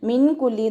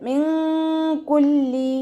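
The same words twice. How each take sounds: First: The n sound is pronounced clearly. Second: The n sound is hidden with nasalization. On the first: The speaker calls it wrong. "മിൻ കുല്ലി എന്ന് ഓതി പോവരുത്" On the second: The speaker calls it right. "നൂൻ സാക്കിനയെ മറച്ചു വെച്ചിട്ട് മണിച്ചോതി കൊടുക്കുക"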